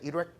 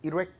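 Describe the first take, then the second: First: It is said with two syllables, like 'irek'. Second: The same.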